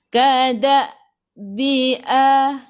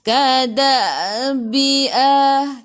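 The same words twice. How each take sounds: First: A glottal catch breaks the word before 'bi'. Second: The syllables run together without a catch. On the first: The speaker calls it right. "Kada baca dengan putus, jangan sambung" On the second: The speaker calls it wrong. "Jangan kada bi'a"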